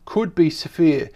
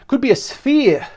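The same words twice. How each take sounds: First: Said in the usual way. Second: Higher-pitched mock German accent; angry German. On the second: Presenter rereading the article to viewers, angry German. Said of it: "Sound like an angry German".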